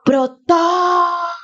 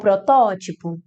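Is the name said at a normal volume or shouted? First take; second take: shouted; normal. First: The name is shouted loudly. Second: The name is said at normal volume.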